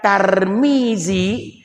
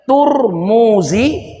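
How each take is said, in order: First: The first syllable has an a vowel. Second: The first syllable has a u vowel. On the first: The speaker calls it wrong. "jadi bukan Tarmizi" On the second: The speaker calls it right. "tapi Turmuzi"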